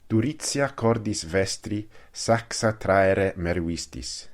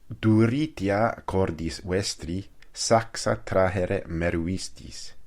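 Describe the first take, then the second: First: It uses Italian ecclesiastical Latin pronunciation. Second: It uses classical Latin pronunciation. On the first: "nella pronuncia ecclesiastica italiana"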